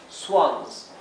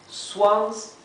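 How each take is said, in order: Both takes have the same delivery.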